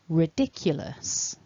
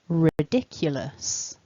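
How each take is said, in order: First: There is a y sound after the k. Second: There is a y sound after the k.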